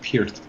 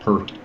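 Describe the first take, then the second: First: The vowel sounds like the one in 'peer'. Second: The vowel sounds like the one in 'hurt'. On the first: The speaker calls it right. "And I said correct, it's Peart" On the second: The speaker calls it wrong. "not Pert"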